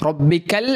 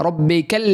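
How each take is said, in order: The two takes are said the same way.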